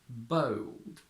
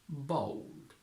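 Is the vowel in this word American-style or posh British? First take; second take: posh British; American-style. First: The vowel is a posh British diphthong. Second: The vowel is an American-style diphthong. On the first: The speaker calls it wrong. "ridiculously posh and very hard to produce" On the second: The speaker calls it right. "We go American and say bold"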